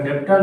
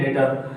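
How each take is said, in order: First: "डेप्टर" with a p sound before the t; wrong pronunciation. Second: "डेटर" going straight from vowel to t; silent B. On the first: Teacher showing the mistake in debtor, sounded stop in "डेप्टर". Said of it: "डेप्टर नहीं बोलते हैं". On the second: Teacher giving the correct debtor, silent B in "डेटर". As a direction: say "डेटर" with no b or p before the t. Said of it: "क्या बोलते हैं". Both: Shown as a demonstration.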